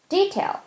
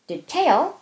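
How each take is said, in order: First: The stress is on the first syllable. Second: The stress is on the second syllable. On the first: "뒤에 거는 d의 강세가 있잖아요" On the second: "앞에 거는 tail의 강세 있고"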